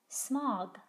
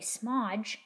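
First: The final g is a hard g. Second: The final g is a soft j. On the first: The speaker calls it right. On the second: The speaker calls it wrong.

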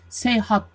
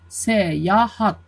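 First: The word is said with two syllables. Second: The word is said with three syllables. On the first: The speaker calls it wrong. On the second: The speaker calls it right.

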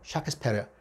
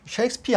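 First: It begins with a short 'shak' and ends 'spair'. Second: It begins with 'shake' and ends 'speer'. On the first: This is how it was probably said in the sixteenth century. "십육 세기 때 발음은 셰익스피어가 아니고 샤크스페어예요" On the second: This is the present-day way of saying it. "현대식 발음입니다"

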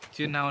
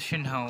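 First: The first word begins with a 'ch' sound. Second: The first word begins with a 'sh' sound. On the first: The speaker calls it wrong. "चिन हाउ नहीं होता" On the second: The speaker calls it right.

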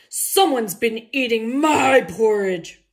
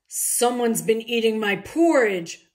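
First: It is said loudly, like a roar. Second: It is said fairly quietly, not roared.

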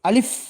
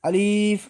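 First: The vowel is kept short, not drawn out. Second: The vowel is drawn out long. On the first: The speaker calls it right. "এটা আলিফ এরকম হবে" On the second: The speaker calls it wrong. "যদি আমরা টেনে পড়ি তাহলে এখানে ভুল হবে। আমরা অনেকেই আলিফ বলি, এটা আসলে ভুল উচ্চারণ"

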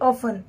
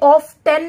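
First: The t sound is silent in the middle. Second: The t sound is pronounced in the middle. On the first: The speaker calls it right. "इसे हम ऑफन पढ़ेंगे" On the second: The speaker calls it wrong. "इसे ऑफ्टन नहीं पढ़ेंगे, ऑफ्टन पढ़ना गलत होगा"

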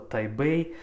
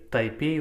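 First: The second syllable begins with a b sound. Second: The second syllable begins with a p sound. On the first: The speaker calls it right. "это Тайбэй" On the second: The speaker calls it wrong. "Тайпей у нас"

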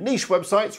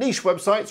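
First: Niche is pronounced the British English way. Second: The same.

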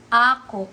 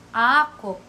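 First: The stress is on the first syllable. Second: The stress is on the first syllable.

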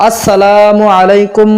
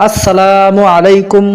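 No difference in how they are said.

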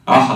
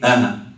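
First: It has deep throaty consonants from the throat. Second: It has no throaty consonants, only plain sounds. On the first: A native speaker says the name. "انت كمصري تقول له ايه؟" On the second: A foreigner who lacks these sounds says the name. "لا عنده العين ولا عنده الحا"

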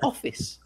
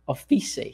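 First: The word is said with standard English pronunciation. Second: The word is said the way Brazilian learners say it. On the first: The speaker calls it right. "instead of office" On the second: The speaker calls it wrong. "they both said office"

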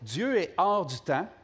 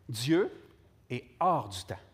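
First: It is spoken at a normal pace. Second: It is spoken at a slower pace.

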